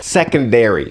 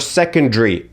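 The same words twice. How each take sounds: First: It is said in an American accent. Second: It is said in a British accent.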